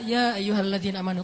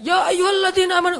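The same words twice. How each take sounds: First: It is read softly, in a sad tone. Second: It is read loudly, like a shout. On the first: The speaker calls it right. "bacalah Al-Qur'an dengan suara sedih kan? Bukan dengan suara teriak" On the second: The speaker calls it wrong. "jangan ya ayyuhalladzina amanu, beda itu. Beda intonasi"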